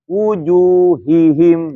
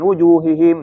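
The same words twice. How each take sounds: First: It is said slowly, with the h sound clear. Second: It is said rushed, with the h sound unclear. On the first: The speaker calls it right. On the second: The speaker calls it wrong.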